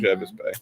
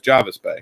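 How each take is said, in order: First: The name is said the way outsiders say it. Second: The name is said the way locals say it. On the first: This is how people unfamiliar with the place say it. The speaker calls it wrong. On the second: This is how people who know the place say it. The speaker calls it right. "the people that lived there or the people that went there a lot, it knew that it was Jarvis Bay"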